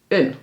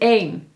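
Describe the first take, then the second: First: The vowel is a short, reduced sound. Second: The vowel is a long, full e sound. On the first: It is the indefinite article a. "Onbepaald is een" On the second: It means the number one. "Bedoel je het getal, dan is het één"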